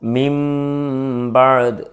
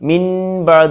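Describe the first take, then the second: First: The final sound of the first word is m. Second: The final sound of the first word is n. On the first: The speaker calls it right. "ആ നൂനിനെ മറിച്ച് മീമാക്കും" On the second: The speaker calls it wrong. "അവിടെ മിൻ ബഅദ് എന്നല്ല പറയാം"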